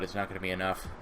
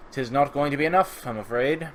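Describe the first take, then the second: First: Said in the usual way. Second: Higher, louder mock-archaic pronouncement; mock formal. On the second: Player redoing his own remark for his viewers, mock formal. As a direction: play at stately regret.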